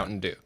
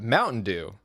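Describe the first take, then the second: First: It is said with the usual inflection. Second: It is said with an unusual, changed inflection. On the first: "you call it" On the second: "it's funnier if you call it"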